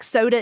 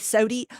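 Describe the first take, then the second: First: The word ends in an 'ah' sound. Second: The word ends in an 'ee' sound. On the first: "words that end in A can end in E instead" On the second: "can end in E instead"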